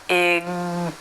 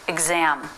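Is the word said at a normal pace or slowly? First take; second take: slowly; normal. First: The word is said slowly and drawn out. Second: The word is said at a normal speed.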